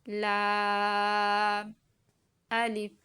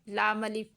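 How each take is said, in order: First: The two names are said separately, one after another. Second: The two names are run together without separation. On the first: The speaker calls it right. "पहले लाम को अदा करेंगे उसके बाद अलिफ को अदा करेंगे" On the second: The speaker calls it wrong. "ऐसे लाम अलिफ लाम अलिफ हम इसको ऐसे नहीं पढ़ेंगे"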